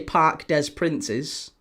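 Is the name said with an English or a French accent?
English. The name is said with a plain English accent. The speaker calls it wrong. "You can't say Parc des Princes. Doesn't work"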